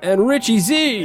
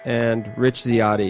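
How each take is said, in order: First: It is said with high energy. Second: It is said with low energy.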